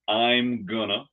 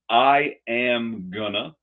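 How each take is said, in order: First: I am is contracted, then gonna follows. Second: Going to is reduced to gonna.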